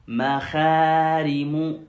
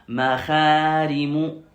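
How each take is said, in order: Both takes have the same delivery.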